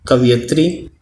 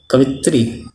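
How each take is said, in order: First: कवयित्री with all four syllables, ka-va-yi-tri; correct form. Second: कवित्री with three syllables, ka-vi-tri; wrong form. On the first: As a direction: say कवयित्री keeping the va-yi. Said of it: "शुद्ध शब्द है". (सही शब्द: कवयित्री, पूरा उच्चारण) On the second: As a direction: drop the va-yi: कवित्री. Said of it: "अशुद्ध शब्द है". (गलत शब्द: कवित्री, छोटा उच्चारण) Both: Shown as a demonstration.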